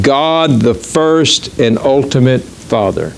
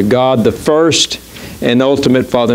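First: Said in the usual way. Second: "God the first and ultimate Father" slow, each word weighted; slow emphasis. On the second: Shown as a demonstration. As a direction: let "God the first" land slowly, then "and ultimate Father". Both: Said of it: "I want that to just register on you".

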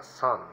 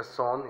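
First: "son" said with an open "ah" vowel, like "san"; pronunciación inglesa. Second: "son" read as spelled, with a clear o; pronunciado como se escribe. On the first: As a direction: say "son" as English "sun". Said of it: "se pronuncia son". ("son" pronunciado en inglés, como "san") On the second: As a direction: say "son" letter by letter, Spanish-style o. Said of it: "se escribe son". ("son" leído tal como se escribe, con o) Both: Shown as a demonstration.

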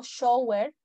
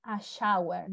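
First: "shower" with a plain O, SHO-wer; wrong pronunciation. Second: "shower" with an OW vowel, SHAU-er; correct pronunciation. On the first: Teacher shows students what not to say, "shower" mispronounced as SHO-wer. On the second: Teacher models a shower for students, "shower" correctly pronounced SHAU-er. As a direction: say "shower" as SHAU-er, rhyming with power. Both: Shown as a demonstration. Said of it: "no digo shower".

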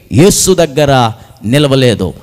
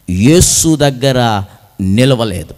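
No difference in how they are said.

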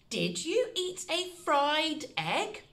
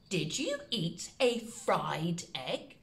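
First: Sing-song slow question; higher playful repeat. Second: Slow and a little softer; low, careful dictation. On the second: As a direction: read the question out slowly to copy. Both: Shown as a demonstration. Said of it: "The second one is".

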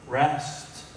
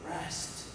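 First: Said in the usual way. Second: Rest whispered, barely voiced. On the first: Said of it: "preacher repeating word". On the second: Shown as a demonstration. Preacher whispering Rest to his congregation. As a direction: breathe the word Rest. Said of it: "preacher repeating word softly".

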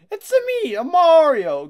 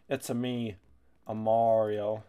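First: Squeaky high Italian plumber voice, cracking; a strained, voice-cracking Mario impression; bad Mario impression. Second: Said in the usual way. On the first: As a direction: belt a cartoon Mario catchphrase way up high. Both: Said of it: "I don't have a good Mario accent".

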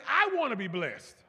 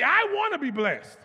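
First: Said in the usual way. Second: Higher, much louder proclamation. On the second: Shown as a demonstration. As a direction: shout it like you really want it. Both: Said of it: "if you really want to be blessed".

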